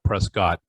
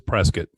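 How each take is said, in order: First: The ending does not sound like 'biscuit'. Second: The ending sounds like the end of 'biscuit'. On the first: The speaker calls it wrong. "not Prescott" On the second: The speaker calls it right. "It's Prescott"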